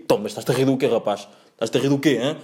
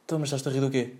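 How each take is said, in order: First: Imitated driver demanding an answer, everyday volume; rejected driver impression. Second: Softer imitated driver, in an altered voice; corrected driver impression. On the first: Driver confronting a laughing passenger, lightly imitated challenge. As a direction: question him like an annoyed driver, lightly voiced. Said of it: "Não, não, não diz assim, não diz tipo". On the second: Driver confronting a laughing passenger, quietly imitated challenge. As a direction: quietly challenge him as the driver, lightly put on. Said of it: "Não, não diz isto, diz tipo".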